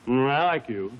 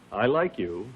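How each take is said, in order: First: It is mumbled and unclear. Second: It is clearly articulated.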